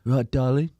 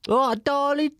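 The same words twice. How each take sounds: First: Lightly Essex, cheeky greeting; a hint of Essex geezer calling her darling; Essex bloke greeting. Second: High, loud Essex geezer greeting; high Essex impression. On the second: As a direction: overdo the Essex darling, pitched up. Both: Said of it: "But he's more Essex-y".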